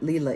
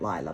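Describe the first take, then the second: First: The first vowel sounds like 'ee'. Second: The first vowel sounds like 'eye'. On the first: The speaker calls it right. "Leela is the correct pronunciation" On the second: The speaker calls it wrong. "it just came out Lila"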